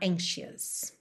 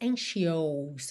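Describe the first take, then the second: First: The final syllable has a short, reduced neutral vowel. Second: The final syllable has a full, drawn-out 'ou' vowel. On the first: The speaker calls it right. "é mais aquele som bobo, A, A mesmo" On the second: The speaker calls it wrong. "você não diz anxious, você não desenha esse O-U"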